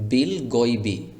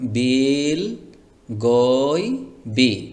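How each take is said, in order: First: All vowels are kept short. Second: A vowel is stretched out long. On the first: The speaker calls it right. "কোথাও কোনো টান হবে না" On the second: The speaker calls it wrong. "এরকম যেন টান না হয়ে যায়"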